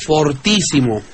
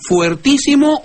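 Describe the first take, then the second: First: "fortísimo" with for at the start; plain O. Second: "fuertísimo" with fuer at the start; diphthong UE. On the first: Host offers the maestro the other form, "fortísimo" with o. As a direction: open "fortísimo" on a simple o. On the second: Host asks the maestro about variants, "fuertísimo" with ue. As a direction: open "fuertísimo" on a clear ue glide. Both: Shown as a demonstration. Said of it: "¿cómo se dice?".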